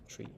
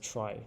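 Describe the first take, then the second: First: The vowel is 'ee', rhyming with 'see'. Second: The vowel is 'eye', rhyming with 'pie'. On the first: The speaker calls it wrong. "not tree" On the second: The speaker calls it right. "it's pronounced as try"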